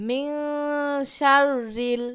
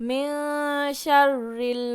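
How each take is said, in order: The two takes are said the same way.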